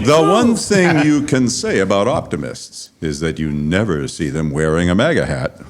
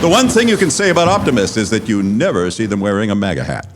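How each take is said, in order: First: The sentence is read slowly. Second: The sentence is read quickly. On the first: The speaker calls it right. "For the slow kids" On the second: The speaker calls it wrong. "Did I read that too fast?"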